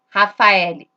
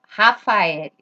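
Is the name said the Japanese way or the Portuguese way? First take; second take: Portuguese; Portuguese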